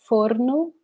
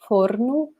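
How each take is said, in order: The two takes are said the same way.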